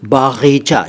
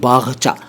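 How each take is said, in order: First: The word has three syllables, with a long middle vowel. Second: The word has two syllables, without a middle vowel. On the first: The speaker calls it wrong. "बागीचा नहीं कहना चाहिए।" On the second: The speaker calls it right. "हमें बोलना चाहिए बागचा।"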